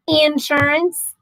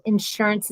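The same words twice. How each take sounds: First: INsurance, first syllable stressed, slow and drawn out. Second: Said in the usual way. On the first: Shown as a demonstration. Trying out Dave's accent, insurance stressed on IN. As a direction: lean hard on the "in" of insurance, slowly. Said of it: "it's an accent on the in". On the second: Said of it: "instead of insurance".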